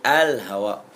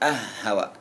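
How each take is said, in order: First: The l sound is heard clearly before h. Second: The l merges into a doubled h. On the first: The speaker calls it right. "tapi al hawa" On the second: The speaker calls it wrong. "bukan ah hawa"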